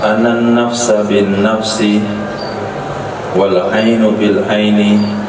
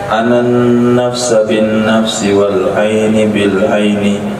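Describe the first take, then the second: First: The first 'ain' ends with a u vowel. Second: The first 'ain' ends with an i vowel. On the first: The word begins a new nominal clause. "Qiraah kedua rafa" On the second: The word is joined to the previous noun in the genitive. "Pertama ataf"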